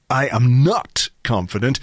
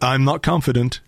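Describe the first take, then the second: First: The word 'not' is heavily stressed. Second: The word 'not' gets no special stress.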